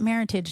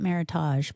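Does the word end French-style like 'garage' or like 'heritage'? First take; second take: like heritage; French-style. First: The word ends like the word heritage. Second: The word ends with a French-style 'ahzh' sound. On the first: The speaker calls it right. "they pronounce it meritage" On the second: The speaker calls it wrong. "not meritage"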